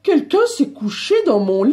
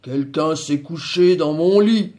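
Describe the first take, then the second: First: It is said in a medium voice. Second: It is said in a very deep, big voice.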